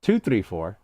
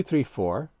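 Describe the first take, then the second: First: Steady spoken count of two three four; counting beats. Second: Rising count on "three, four"; counting beats. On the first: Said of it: "release two, three, four". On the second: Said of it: "So release your two". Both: Shown as a demonstration.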